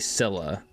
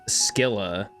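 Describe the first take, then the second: First: The name begins with a soft 's' sound. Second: The name begins with a hard 'sk' sound. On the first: This is the speaker's own way of saying it. The speaker calls it wrong. "and I say Scylla" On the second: This is how everyone else says it. The speaker calls it right. "Everyone else says Skilla"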